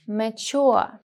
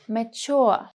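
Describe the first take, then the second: Both takes have the same delivery.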